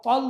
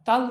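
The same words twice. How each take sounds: First: "تل" with a thick, emphatic t; heavy Arabic ta. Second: Said in the usual way. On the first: Shown as a demonstration. Teacher shows what nobody says, heavy Arabic t. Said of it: "تل نہیں کہتا ہے". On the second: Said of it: "تل کہتا ہے".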